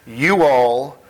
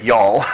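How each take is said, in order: First: It is said as two separate words. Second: It is contracted into one syllable. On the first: This is the speaker's own West Coast form. "I'm from the West Coast" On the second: This is the local form the audience uses. "let me say it right"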